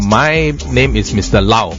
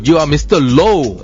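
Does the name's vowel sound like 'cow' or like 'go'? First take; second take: cow; go. First: The name's vowel sounds like the one in 'cow'. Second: The name's vowel sounds like the one in 'go'. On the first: The name is said the way its owner says it. The speaker calls it wrong. "You cannot say Mister Lau" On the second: The name is read the English way from its spelling. The speaker calls it right. "L O W is pronounced as low"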